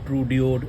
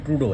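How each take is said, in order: First: The name ends with an extra 'ee' sound: 'dee-oh'. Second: The name ends with a plain 'doh' sound. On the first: The speaker calls it wrong. "इसको पढ़ना ही नहीं आया मुझे कभी" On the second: The speaker calls it right. "अच्छा वैसे ट्रूडो है इसका"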